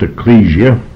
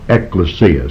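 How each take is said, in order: First: The word is pronounced the English way. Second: The word is pronounced the Greek way. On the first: "that would be the English pronunciation" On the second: "the accent would be shoved as far forward as possible, and it should be pronounced ekklesia"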